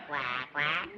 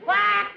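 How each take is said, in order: First: Quiet low quack, like a real duck; soft low duck quack. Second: A single loud mallard quack. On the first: [name] quacks for the hunter, soft low duck call. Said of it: "Meet my duck call". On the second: [name] calls for a customer, a loud mallard quack. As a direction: punch out one mallard call. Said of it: "what kind of duck call". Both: Acted.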